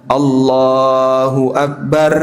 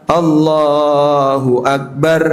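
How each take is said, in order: No difference in how they are said.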